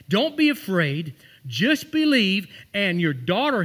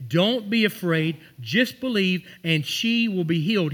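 First: Slow, each word pressed and weighty; slow emphatic Jesus. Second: Reassuring Jesus. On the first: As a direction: lean into every word to reassure. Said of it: "He literally said that". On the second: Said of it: "Jesus said". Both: Acted.

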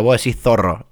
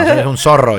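First: "zorro" con Z interdental; imita la Z española. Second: "zorro" con S en vez de Z; seseo argentino. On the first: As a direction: copia la Z castellana en "zorro". (pronunciación a la española) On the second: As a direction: di "zorro" como "sorro". (pronunciación argentina) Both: Shown as a demonstration. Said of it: "es un zorro y es con Z".

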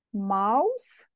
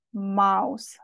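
First: Mouse said the English way, like maus; English pronunciation. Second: Mouse said the Romanian way, like maus; Romanian pronunciation. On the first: Teacher contrasting mouse in English. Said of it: "Atenție la pronunție, se scrie ca în limba engleză". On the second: Teacher giving mouse the Romanian way. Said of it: "se pronunță ca în română". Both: Shown as a demonstration.

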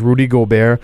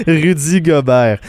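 First: "Rudy Gobert" said the English way, Rudy with an oo sound; "Rudy Gobert" anglicized, "Rudy" as ROO-dee; English-style name. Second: "Rudy Gobert" said the French way, slowly, French u in Rudy; "Rudy Gobert" with French u and a rolled uvular r, laughing; French pronunciation. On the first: Real, not acted. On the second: Shown as a demonstration. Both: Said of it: "comment tu dis Rudy Gobert avec un accent anglais".

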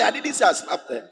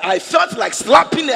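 First: Said in the usual way. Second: Much higher and louder, stress on felt; emphatic shout. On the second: Retold or imitated. Pastor insisting to congregation, loud shout. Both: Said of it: "I said".

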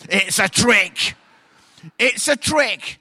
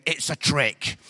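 First: Louder and slower each time; loud slow warning. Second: Said in the usual way. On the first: Shown as a demonstration. Warning the men not to fall for it, slow loud warning.

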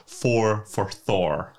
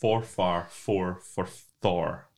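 First: Slowly, each word apart; slow, deliberate. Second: Slow, deliberate. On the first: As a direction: spell it out word by word. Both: Shown as a demonstration.

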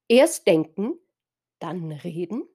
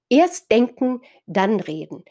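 First: Erst denken, dann reden? with a rising questioning end; questioning rise on reden. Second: Erst denken punched, dann reden falling firmly; firm falling statement, stress on erst. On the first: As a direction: ask it, lift the end of reden. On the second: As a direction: state it as a rule, drop on reden. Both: Shown as a demonstration.

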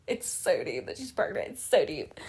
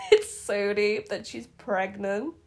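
First: Lower, softer, put-on deep tone; mock deep voice. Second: Said in the usual way. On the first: Shown as a demonstration. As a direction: drop into a joking deep voice.

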